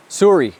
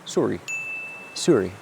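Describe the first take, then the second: First: Put-on loud, higher Canadian-accent "Sorry" with a falling end; Canadian "Sorry" called out loud and bright; mock Canadian sorry. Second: Put-on soft, lower Canadian-accent "Sorry" that falls away; a meek little Canadian "Sorry"; quiet Canadian "Sorry" said lower; mock Canadian sorry. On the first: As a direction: belt out a jokey Canadian "Sorry". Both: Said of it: "what's the Canadian thing to say?".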